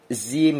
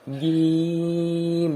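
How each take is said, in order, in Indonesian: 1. Konsonan pertama keluar angin, ada desisnya. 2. Konsonan pertama jernih, tidak ada angin yang keluar. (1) "Zim gitu, enggak boleh" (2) "jangan masuk ke hidung"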